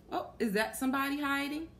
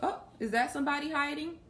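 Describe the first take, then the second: No difference in how they are said.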